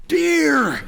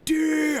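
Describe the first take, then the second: First: Loud, high, fed-up cry of deer; exasperated shout. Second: High shrieking yell of deer; screamed warning. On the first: To the confused driver, an exasperated shouted warning. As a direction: blurt it out sighing and exasperated. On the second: To the driver on River Road, a panicked shriek. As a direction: scream it like the car is about to crash. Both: Retold or imitated.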